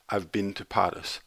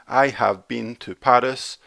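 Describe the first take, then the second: First: Have is contracted, with a weak been. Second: Have is said in full, with strong been. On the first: The speaker calls it right. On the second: The speaker calls it wrong.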